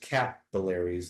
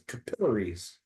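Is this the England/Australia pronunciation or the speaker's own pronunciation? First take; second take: speaker's own; England/Australia. First: It is said in the speaker's usual pronunciation. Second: It is said in the England/Australia pronunciation. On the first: "they don't learn these words as capillaries" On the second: "They learn them as capillaries"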